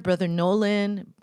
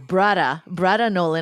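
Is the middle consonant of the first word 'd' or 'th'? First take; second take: th; d. First: The first word has a 'th' sound. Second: The first word has a 'd' sound. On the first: The speaker calls it wrong. "no, not brother" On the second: The speaker calls it right. "I got to say it right"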